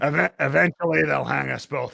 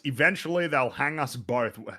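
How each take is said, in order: First: It is said in a put-on character voice. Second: It is said in the speaker's normal voice.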